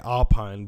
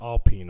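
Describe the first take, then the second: First: It is said with an American pronunciation. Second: It is said with a French pronunciation. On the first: The speaker calls it wrong. "Americans say Alpine" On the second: The speaker calls it right. "That's how they say"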